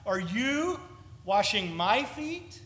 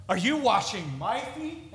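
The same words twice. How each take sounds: First: "you" और "my" पर ज़ोर, धीरे; stress on you and my. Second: "you" पर हल्का ज़ोर, आवाज़ ऊपर जाती हुई; emphatic you. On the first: Shown as a demonstration. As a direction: hit "you" then "my", slowing down. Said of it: "the pronouns are emphatic". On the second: Retold or imitated. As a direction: lift on "you" asking. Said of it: "the indignation of Peter".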